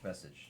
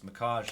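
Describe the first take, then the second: First: The name sounds like 'Message'. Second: The name sounds like 'Makaj'. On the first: The speaker calls it right. "That's how they told me to pronounce it" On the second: The speaker calls it wrong. "Not Makaj"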